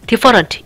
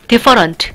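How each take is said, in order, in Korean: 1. 강세 없는 가운데 모음은 완전한 모음이에요. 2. 강세 없는 가운데 모음은 완전한 모음이에요.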